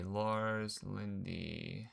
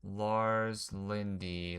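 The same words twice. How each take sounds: First: Drawn out slowly and softer, rising; softer slow musing. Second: Drawn out slowly, puzzling over it; slow musing. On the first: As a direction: trail off puzzled with a lift. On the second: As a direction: stretch the name while thinking. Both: Real, not acted. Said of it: "Let me figure something out".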